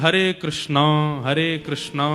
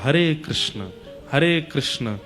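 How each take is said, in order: First: Krishna ends with an added long 'a' vowel. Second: Krishna ends without any added long vowel. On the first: This is the regional Bengali way of saying it. The speaker calls it wrong. "Bengal की बोली में अकार आ जाता है" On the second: This is the actual form of the mantra. The speaker calls it right. "उसमें अकार मत लगाइए"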